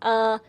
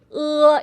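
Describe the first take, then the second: First: The vowel is said with relaxed, unpouted lips. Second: The vowel is said with jaw out, lips pouted. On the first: The speaker calls it wrong. "instead of saying uh" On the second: The speaker calls it right. "stick your lower jaw out a little bit more ... and pout a little bit"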